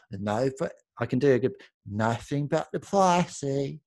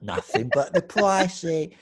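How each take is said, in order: First: Slow, slurred Katie Price drawl; a hint of Katie Price sounding drunk. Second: Slow, slurred imitation of her; a mild mock drunk drawl; drunk-sounding drawl. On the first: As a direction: lightly mimic her drunk-sounding drawl. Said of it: "That's how she talks". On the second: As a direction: lightly slur it like she's tipsy. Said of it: "It's kinda like a drunk".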